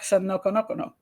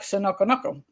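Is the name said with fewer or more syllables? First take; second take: more; fewer. First: The name is said with one extra syllable. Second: The name is said with one syllable fewer. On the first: The speaker calls it right. "It's got an extra syllable in there" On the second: The speaker calls it wrong. "Did I say that right?"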